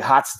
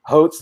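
First: The vowel is short, rhyming with trot. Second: The vowel is long, rhyming with Oates.

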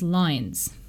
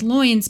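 First: The vowel sounds like 'eye' as in lines. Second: The vowel sounds like 'oy' as in boy. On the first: "If you read it in original pronunciation, the word loins becomes lines" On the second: "that's how we would read it"

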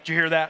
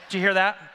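First: It is said in the speaker's normal voice. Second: It is said in a put-on female voice.

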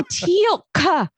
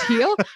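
First: The name has a glottal stop and ends with a 'k' sound. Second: The name ends on 'l' with no glottal stop or final 'k'. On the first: The speaker calls it right. "Did you hear the glottal stop?" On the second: The speaker calls it wrong.

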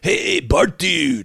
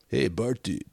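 First: It is said in a broad, exaggerated way. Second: It is said in a low-key, subdued way.

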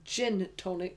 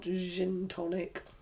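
First: The sounds are said plainly, without softening. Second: The sounds are softened where they should not be. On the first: The speaker calls it right. "So gin tonic" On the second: The speaker calls it wrong. "softening the wrong things"

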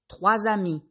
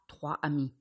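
First: A z sound links the number to the noun. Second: No z sound links the number to the noun. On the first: The speaker calls it right. "vous entendrez le son Z" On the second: The speaker calls it wrong. "et pas"

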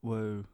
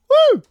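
First: It is said with toned-down energy. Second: It is shouted with very high energy.

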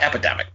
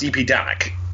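First: The word begins with the ordinary sound 'epi'. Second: The word begins with the spelled letters E-P. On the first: It is just the ordinary word. The speaker calls it wrong. "not Epidemic" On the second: The speaker calls it right. "I think it's pronounced Epidemic"

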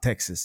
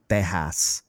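First: It is said with a plain American accent. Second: It is said with a Spanish-flavored accent. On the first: The speaker calls it wrong. "It's not Texas. ... you don't say it like gringos" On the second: The speaker calls it right. "It's Texas. ... with a Spanish accent"

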